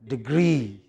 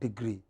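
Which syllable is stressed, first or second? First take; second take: second; first. First: The stress is on the second syllable. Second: The stress is on the first syllable. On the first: The speaker calls it right. "Stress on the second syllable" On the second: The speaker calls it wrong. "It is not"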